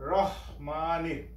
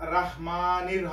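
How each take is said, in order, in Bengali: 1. প্রথম অক্ষরে গোলাকার 'ro' স্বরধ্বনি আছে। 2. প্রথম অক্ষরে খোলা 'ra' স্বরধ্বনি আছে। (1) "এখানে হবে রহমানির" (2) "এখানে রাহমানির হবে না"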